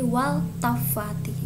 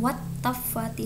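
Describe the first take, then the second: First: The L is pronounced clearly before the T. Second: The L merges into a doubled T sound. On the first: The speaker calls it right. "tetap izhar qomariyah dibacanya" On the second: The speaker calls it wrong. "bukan wat tafati, salah"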